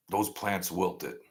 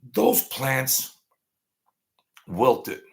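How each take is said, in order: First: Slow, soft, grave; solemn hush. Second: Said in the usual way. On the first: Real, not acted. Streamer solemnly repeating the plants' fate, slow and soft. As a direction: let it land quietly and slowly.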